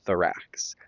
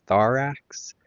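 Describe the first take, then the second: First: "Thorax" as thuh-RAX, second syllable stressed. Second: "Thorax" as THOR-ax, first syllable stressed. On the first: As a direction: reduce "Thor" and lean on "ax" in "Thorax". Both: Shown as a demonstration. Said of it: "the emphasis is on the second syllable".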